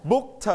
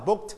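First: Booked with a strong, puffed "tuh" after it; "booked" with separate t. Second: Booked as one syllable ending in a light t; softened final t. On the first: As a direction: break off the t of booked as its own beat. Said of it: "we pronounce t". (booked แยกเสียงท้าย "เทอะ" ชัดๆ) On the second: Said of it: "and volume down booked". (booked เสียง "เทอะ" ท้ายคำเบาๆ) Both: Shown as a demonstration.

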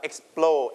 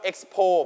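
First: "explo" with the L sounded right after the P; L clearly sounded. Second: "expo" said with no L after the P; L left out. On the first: Teacher gives the class the correct form, "explo" with its L. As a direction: put the L in firmly: "explo". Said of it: "but explo". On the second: Teacher warns the class of a slip, "expo" without its L. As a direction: drop the L, giving "expo" as the mistake. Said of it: "not expo, but explo". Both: Shown as a demonstration.

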